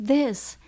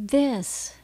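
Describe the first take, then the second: The two takes are said the same way.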